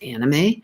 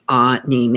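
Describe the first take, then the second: First: The first syllable sounds like 'an' in animation. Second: The first syllable sounds like an open 'ah'. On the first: The speaker calls it wrong. "I have been pronouncing it wrong all these years. I was pronouncing it anime, like animation" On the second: The speaker calls it right. "it is actually pronounced anime, A H K N E E M A Y"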